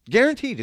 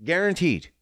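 First: Guaranteed said higher and louder, insisting; emphatic repeat. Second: Said in the usual way. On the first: Real, not acted.

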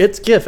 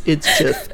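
First: "gif" with a hard G as in "gift". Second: "gif" said like "jif"; soft G. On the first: Shown as a demonstration. Insisting to friends, "gif" with hard G. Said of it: "Phonetically, it is". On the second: Retold or imitated. Mocking those who say it wrong, "gif" as "jif". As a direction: say "gif" with a J sound. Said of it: "someone for some reason just thinks it's gif".

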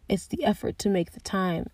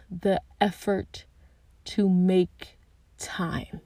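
First: Said in the usual way. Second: "the effort to make time" drawn out slowly, each word weighted; slow emphasis. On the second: Shown as a demonstration.

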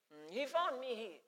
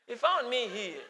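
First: Put-on softer lilting Nyanja accent; quiet singsong Nyanja accent. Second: Laughing through the Nyanja line; amused laughing Nyanja-accent line; laughing repeat. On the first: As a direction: sing the words in a Nyanja accent. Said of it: "He was singing, singing a Nyanja accent". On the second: Acted. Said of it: "singing a Nyanja accent".

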